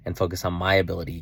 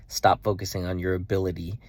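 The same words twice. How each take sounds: First: "my" punched louder, quick phrase; stress on MY. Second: "your" picked out before "ability"; stress on YOUR. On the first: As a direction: hit "my" in contrast to "your". Contrast of my and your ability. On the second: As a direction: set "your" against "my". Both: Retold or imitated.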